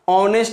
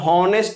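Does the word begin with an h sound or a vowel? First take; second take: vowel; h sound. First: The word begins with an o vowel. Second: The word begins with an h sound. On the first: The speaker calls it right. "ऑनेस्ट आएगा, जो कि ओ आ रहा है" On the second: The speaker calls it wrong. "हॉनेस्ट पढ़ोगे तो sound ह आ जाएगा"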